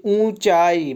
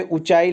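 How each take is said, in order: First: ऊंचाई with a drawn-out opening oo; long oo. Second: ऊंचाई with a quick short u; wrong short u. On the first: Teacher showing the big oo, ऊंचाई drawn out. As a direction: stretch the first vowel of ऊंचाई slowly. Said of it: "बड़ा ऊ होता है". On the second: Teacher reading the misspelling, ऊंचाई with short u. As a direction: keep the first vowel of ऊंचाई short. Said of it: "छोटा ऊ". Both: Shown as a demonstration.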